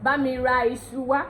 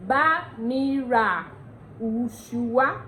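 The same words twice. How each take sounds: First: "iṣu" begun with an ee sound; Yoruba pronunciation. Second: "ushu" begun with a long oo; slow teaching demo, "ushu" as oo-shoo; Ondo pronunciation. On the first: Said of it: "in Yoruba". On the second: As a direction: stretch the phrase, oo opening on "ushu". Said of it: "Say, in Ondo". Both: Shown as a demonstration.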